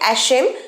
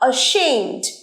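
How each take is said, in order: First: The first vowel is like the 'a' in 'cat'. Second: The first vowel is an open 'ah' sound. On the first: The speaker calls it wrong. "তোমরা অনেকেই হয়তো ভুল উচ্চারণ করবে অ্যাশেম" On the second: The speaker calls it right. "প্রথমের এটার উচ্চারণ অ্যা নয়, আ"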